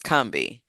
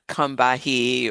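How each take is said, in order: First: The name is said with two syllables. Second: The name is said with three syllables. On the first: This is how local people say it. The speaker calls it right. "people from the region pronounce the name of the river the same. It's Combie" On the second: This is how outsiders say it. The speaker calls it wrong. "It's not Combahee"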